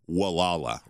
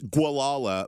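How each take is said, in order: First: The name begins with a plain 'w' sound. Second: The name begins with a 'gw' sound. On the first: This is the name as locals say it. "if you're a local, how they pronounce it" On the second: This is the name as outsiders say it. "it's Gualala"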